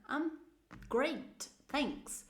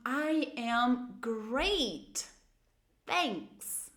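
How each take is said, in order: First: Said in the usual way. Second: Very slow, with "great" drawn out; slow intoned model. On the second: Shown as a demonstration. Teacher models an answer with intonation, very slowly. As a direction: stretch each word with full intonation. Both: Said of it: "Lembrem de usar a entonação".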